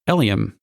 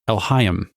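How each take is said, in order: First: The name is said without an h sound. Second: The name is said with an h sound. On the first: The speaker calls it wrong. "it's not Eliam" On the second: The speaker calls it right. "You pronounce it Elhaim"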